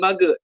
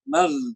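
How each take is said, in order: First: The gh sound bounces with an added vowel. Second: The gh sound flows smoothly without bouncing. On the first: The speaker calls it wrong. "Bukan mage" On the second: The speaker calls it right. "tapi mag. Biarkan mengalir gitu, halus"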